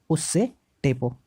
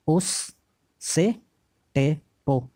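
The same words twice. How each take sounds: First: Said in the usual way. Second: Drawn out slowly. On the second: Shown as a demonstration.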